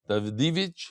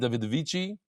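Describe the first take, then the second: First: The name ends with a 'ch' sound. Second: The name ends with an added 'ee' vowel. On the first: The speaker calls it right. "it's not the Davici" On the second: The speaker calls it wrong. "You don't pronounce the I at the end"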